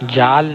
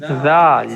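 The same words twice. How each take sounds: First: It begins with a 'j'-like sound. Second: It begins with the tongue tip touching upper teeth. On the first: The speaker calls it wrong. "जाल नहीं" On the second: The speaker calls it right. "जैसे अ, सा को पढ़ा था आपने। ... जुबान की ये नोक है, यहाँ पे देखिए टच होगा।"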